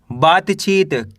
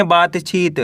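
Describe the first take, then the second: First: Slow reading. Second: Said in the usual way. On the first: Shown as a demonstration. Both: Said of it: "कैसे पढ़ेंगे?".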